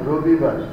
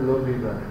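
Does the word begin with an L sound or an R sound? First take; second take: R sound; L sound. First: The word begins with an R sound. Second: The word begins with an L sound. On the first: "যেমন রবিবার" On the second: "এটাকে বলে লবিবার"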